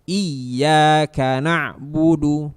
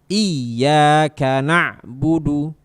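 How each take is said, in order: The two takes are said the same way.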